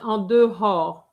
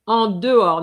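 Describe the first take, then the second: First: The H in dehors is pronounced. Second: The H in dehors is silent. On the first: The speaker calls it wrong. "not en dehors" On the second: The speaker calls it right. "the H is, is silent"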